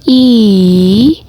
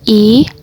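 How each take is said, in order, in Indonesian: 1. Vokal ini memakai nada ketiga. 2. Vokal ini memakai nada kedua. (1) "nada ketiga" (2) "nada kedua"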